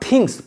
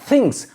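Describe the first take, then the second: First: The th is a full hard stop. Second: The th is soft with air. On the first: The speaker calls it wrong. "not things, पूरा था नहीं" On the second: The speaker calls it right. "इसमें भी air के साथ"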